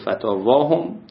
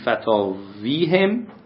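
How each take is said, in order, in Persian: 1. مصوت قبل از پسوند 'a' است. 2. مصوت قبل از پسوند 'ee' است.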